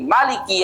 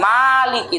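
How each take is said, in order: First: The first vowel is short. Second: The first vowel is long. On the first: The reading without alif. "tanpa alif ... tapi maliki yaumiddin" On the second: The reading with alif. "bila alifin kelawan tanpa alif bukan maliki"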